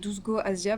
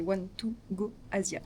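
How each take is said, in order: First: The number is read as a French word. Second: The number is read as English words. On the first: This is how French people usually say it. The speaker calls it wrong. "Qu'on prononce nous les Français" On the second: This is the actual name. The speaker calls it right. "mais c'est One to Go Asia"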